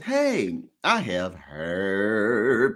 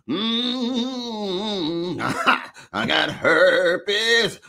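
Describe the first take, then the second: First: It is said in a cool, calm voice. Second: It is said in a Baptist preacher voice.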